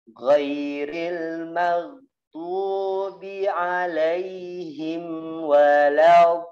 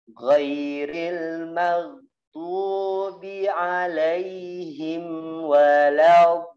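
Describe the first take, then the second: First: The consonant is drawn out with a flowing sound. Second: The same.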